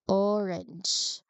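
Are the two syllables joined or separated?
joined. The two syllables flow together smoothly. The speaker calls it right. "transition this, those two syllables seamlessly, smoothly"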